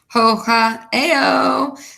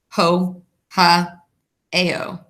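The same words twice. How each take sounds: First: It is said in a silly, playful way. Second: It is said in a plain, matter-of-fact way.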